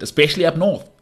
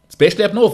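First: Said in the usual way. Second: "Especially up north" repeated louder and higher; emphatic repeat. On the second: Real, not acted. Pundit driving his point home, emphatic and louder.

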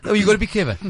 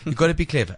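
First: High, loud, insistent; emphatic. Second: Said in the usual way. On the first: Real, not acted. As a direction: punch gotta be clever hard.

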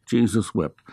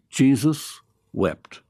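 First: Said in the usual way. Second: Slow, weighty verse reading; solemn scripture reading. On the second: Acted. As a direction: let the two words sink in slowly.

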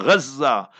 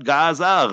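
First: "Gaza" with throaty Arabic gh and doubled z, "Ghazza"; Arabic pronunciation. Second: "Gaza" said the Western way, hard G; wrong pronunciation. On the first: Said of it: "proper Islamic Arabic pronunciation". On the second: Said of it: "learn the proper Islamic Arabic pronunciation". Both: Shown as a demonstration.

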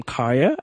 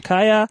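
First: "Kaya" said the English way, flattened; "Kaya" as a corporate colleague would say it; anglicised name. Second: "Kaya" said with its own Zulu sounds; "Kaya" pronounced the proper Zulu way; Zulu name. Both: Shown as a demonstration. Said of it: "to become Kaya as opposed to Kaya".

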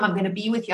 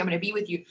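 First: Said in the usual way. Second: The promise said much softer, dying away; fading quiet. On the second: Retold or imitated. Quoting her teacher's promise as it fades, much softer. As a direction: let it trail off to almost nothing.

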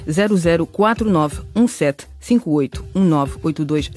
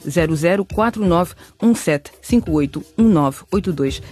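No difference in how they are said.

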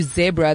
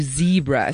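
First: "zebra" with a short E, "zeb-ra"; South African pronunciation. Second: "zebra" with a long EE, "zee-bra"; American pronunciation. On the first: Coach shows the form Americans don't use, "zebra" as "zeb-ra". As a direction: rhyme the first syllable of "zebra" with "web". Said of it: "they don't do zebra". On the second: Coach shows how Americans say it, "zebra" as "zee-bra". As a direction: rhyme the first syllable of "zebra" with "see". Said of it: "they do zebra". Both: Shown as a demonstration.

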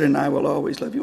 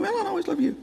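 First: A father's low, quick reassurance; tender father. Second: High, soft mimicking voice; mocking echo. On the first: Retold or imitated. Father's tender line, then echoed. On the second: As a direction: parrot it back in a small, high voice. Mimicking echo of father's line.

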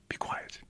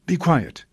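First: Whispered "Be quiet" as a stern hush; hushed command. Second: Sharp command. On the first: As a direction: hiss the order softly at the spirit. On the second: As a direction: bark the order at the spirit. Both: Acted. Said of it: "And Jesus says quite sharply".

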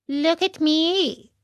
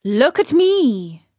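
First: High, drawn-out cat; cat's voice. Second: Loud, slow, slightly high fox; fox's appeal. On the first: Cat echoing the fox's warning, high and drawn out. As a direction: echo the fox in a higher put-on voice. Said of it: "said the cat". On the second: Fox warning Pinocchio against study, loud and drawn out. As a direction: demand attention, drawing the words out. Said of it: "said the fox". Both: A narrator's reading.

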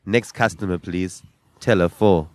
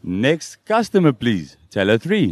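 First: Flat cashier announcement; bored mechanical politeness. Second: Slow till announcement; slow and flat, a store voiceover; bored mechanical politeness. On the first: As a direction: read it like a weary till voice. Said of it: "Look into the camera and say". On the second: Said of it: "Look into camera and say". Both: Shown as a demonstration.

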